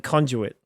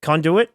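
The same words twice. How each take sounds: First: "conduit" with a j sound, CON-ju-it; British pronunciation. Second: "Conduit" with a plain d, CON-doo-it; American pronunciation. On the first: Contrasting two dictionary versions, British "conduit" as CON-ju-it. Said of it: "British pronunciation". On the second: Contrasting two dictionary versions, American "Conduit" as CON-doo-it. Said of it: "is American". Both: Shown as a demonstration.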